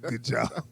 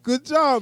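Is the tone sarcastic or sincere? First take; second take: sarcastic; sincere. First: It is said in a sarcastic tone. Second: It is said in a sincere tone. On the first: The praise is not meant. "That's the sarcastic" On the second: The praise is genuinely meant. "I was really like"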